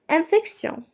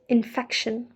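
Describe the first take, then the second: First: It is said with a French pronunciation. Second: It is said with an English pronunciation. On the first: "same spelling in English and French but have a completely different sound"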